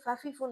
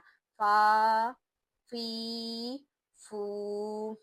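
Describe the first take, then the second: First: The syllables are said quickly and clipped short. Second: The syllables are said slowly and drawn out. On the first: The speaker calls it wrong. "ऐसे फ़ा-फ़ी-फ़ू नहीं पढ़ना" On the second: The speaker calls it right. "जल्दी नहीं पढ़ना, थोड़ा खींच कर पढ़ना है"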